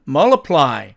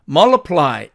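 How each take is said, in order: First: The t sound is dropped. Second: The same.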